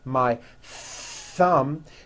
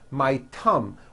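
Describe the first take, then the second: First: The word begins with a th sound. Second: The word begins with a t sound. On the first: The speaker calls it right. "notice how my tongue is coming out" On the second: The speaker calls it wrong. "you've been saying tum ... That is not correct"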